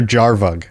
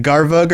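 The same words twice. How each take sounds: First: Jarvug with a J sound, as in jam; soft-G pronunciation. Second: Garvug with a hard G, as in gift; hard-G pronunciation. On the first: Host posing the new gif-or-jif debate, J sound on Jarvug. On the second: Host posing the new gif-or-jif debate, hard G on Garvug. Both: Shown as a demonstration. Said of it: "Is it gif or jif?".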